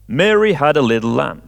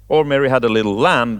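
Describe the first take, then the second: First: The stress is on Mary. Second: The stress is on lamb.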